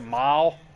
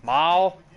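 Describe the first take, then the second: First: It is said with a drawling, twangy accent. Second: It is said with a drawling, twangy accent.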